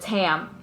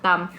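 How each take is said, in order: First: It is said with an American pronunciation. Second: It is said with a Vietnamese pronunciation. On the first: This is the name as used growing up in America. "instead of Tam" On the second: This is the name as used in Vietnam. "I'm gonna go by [name]"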